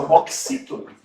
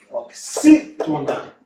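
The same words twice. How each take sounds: First: Said in the usual way. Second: Slow "Oxítona" with a long, strong XÍ; "Oxítona" drawn out to show the strong XÍ; stress on XÍ. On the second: Shown as a demonstration. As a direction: split "Oxítona" and punch the XÍ. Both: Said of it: "qual que é a sílaba forte".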